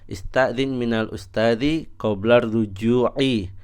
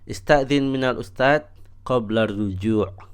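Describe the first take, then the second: First: The word endings keep their full final vowels. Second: The word endings are cut without final vowels. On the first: It is only required for deeper grammar study. "Tidak usah" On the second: It is enough for everyday communication. "tidak harus kita membaca harokatnya secara utuh. Cukup"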